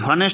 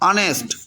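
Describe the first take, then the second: First: The word begins with an audible h sound. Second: The word begins directly with a vowel sound. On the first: The speaker calls it wrong. "হনেস্ট বলা যাবে না" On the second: The speaker calls it right. "এখানে এইচের উচ্চারণটা বাদ"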